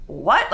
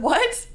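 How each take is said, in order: First: Flat, low disbelieving What?; a dropped, baffled What; low stunned what. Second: What? shot up high in disbelief; high incredulous what. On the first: To the woman after her odd remark, a low stunned What?. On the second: Asking the woman to repeat herself, a high incredulous What?. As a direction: squeak out What? in shock. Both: Retold or imitated. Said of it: "Like, I literally said".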